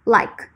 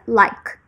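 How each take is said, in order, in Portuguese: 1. A palavra termina de forma seca no som de k. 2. A palavra termina de forma seca no som de k.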